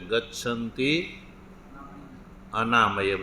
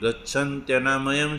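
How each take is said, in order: First: The two words are said separately, ending in -i. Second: The two words are run together as one.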